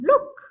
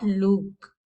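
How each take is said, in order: First: "look" with a short, quick oo; short vowel. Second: "look" with the oo dragged out long; drawn-out oo in "look"; wrongly lengthened vowel. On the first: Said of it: "not look". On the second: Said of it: "look, not look". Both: Shown as a demonstration.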